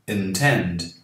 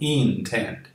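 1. A primeira vogal soa como 'eh'. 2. A primeira vogal soa como 'ee'. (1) "aqui não é I, é E" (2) "e não intend"

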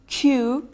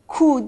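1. Ünlü ses yumuşatılmış ve yumuşak. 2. Ünlü ses sert ve yumuşatılmamış. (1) "U'yu biraz yumuşatarak söylerseniz Q" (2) "Q değil"

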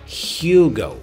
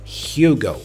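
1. É pronunciado com pronúncia do inglês. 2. É pronunciado com pronúncia do inglês.

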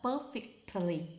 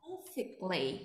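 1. Âm t ở giữa được phát âm. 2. Âm t ở giữa bị câm. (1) "chứ không gọi là perfectly" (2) "âm p ở đây em là câm"

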